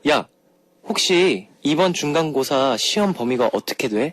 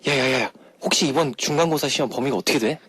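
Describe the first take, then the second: First: The sentence is said slowly. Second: The sentence is said fast.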